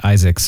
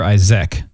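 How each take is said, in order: First: "Isaacs" said with a final s, EYE-zaks; wrong name ending. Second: "Isaac" said with no final s, EYE-zik; correct name. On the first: Host owning up to a name mistake, saying "Isaacs" with the s. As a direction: says "Isaacs" with the extra s on the end. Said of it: "I need to apologize. We've been saying Isaacs". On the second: Host correcting himself, "Isaac" with no s at the end. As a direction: ends "Isaac" cleanly with no s. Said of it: "but it's Oscar Isaac". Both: Shown as a demonstration.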